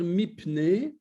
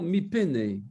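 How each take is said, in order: First: The p and n run together without a vowel. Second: A short vowel is sounded between p and n. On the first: This is how people usually say it. The speaker calls it wrong. "on a tendance à dire mipne" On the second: This is how it should be said in theory. The speaker calls it right. "ça devrait être théoriquement mipene"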